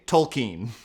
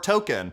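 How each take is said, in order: First: It sounds like 'toll' followed by 'keen'. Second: It sounds like the word 'token'. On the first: "the toll that this is taking on my soul has made me very keen to say" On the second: "I've been saying token for so long"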